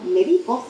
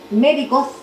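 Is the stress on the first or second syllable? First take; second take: second; first. First: The stress is on the second syllable. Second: The stress is on the first syllable. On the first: I am giving medication. "si estoy medicando" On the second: A person who practices medicine. "si me refiero a quien ejerce la profesión"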